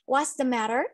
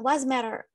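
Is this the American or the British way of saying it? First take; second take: British; American. First: Every word is said, including a clear 'the'. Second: The words run together and 'the' is dropped. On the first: "Que é o jeito britânico" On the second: "E nós temos o americano"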